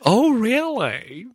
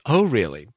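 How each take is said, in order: First: Mock surprise. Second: Said in the usual way. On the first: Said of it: "Oh, no, that was me". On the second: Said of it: "that was me".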